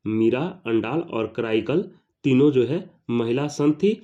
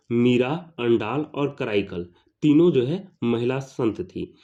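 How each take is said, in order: Both takes have the same delivery.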